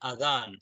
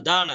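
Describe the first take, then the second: First: The middle consonant is a soft th sound. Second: The middle consonant is a plain d sound. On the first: The speaker calls it right. "நாக்குடைய நுனி ... பல்லுல ரெண்டுக்கும் இடையில லேசாகப்படும்" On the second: The speaker calls it wrong. "அதான் அல்ல"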